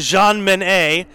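The name is pronounced the French way. "we can go all French and go Jean Minet"

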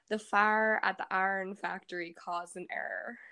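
It is said with a Pittsburgh accent. "a yinzer would say"

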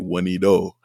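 The T is said the Canadian way.

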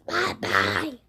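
It is said in a put-on Zax voice.

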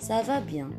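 The pitch stays level at the end. It answers that one is well. "Dan jawabnya ça va bien"

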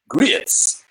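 The word is stretched into two syllables. This is how Southern speakers say it. "grits is a two syllable word"

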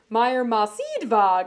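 The pitch goes up in the middle of the name.

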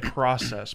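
It is said with an American vowel. "We say process"

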